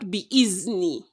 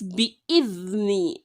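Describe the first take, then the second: First: The middle consonant is a 'z' sound. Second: The middle consonant is a 'th' sound. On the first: The speaker calls it wrong. "and not" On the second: The speaker calls it right. "is not za, but the"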